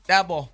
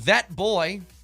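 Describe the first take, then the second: First: The words are run together in a southern childlike way. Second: The two words are said plainly and separately.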